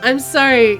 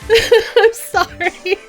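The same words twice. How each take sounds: First: It is said in the speaker's ordinary accent. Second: It is said in a put-on Canadian accent.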